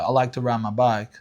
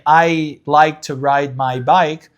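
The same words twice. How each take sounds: First: It is said in an African American accent. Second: It is said in a general American accent. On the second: "instead of saying"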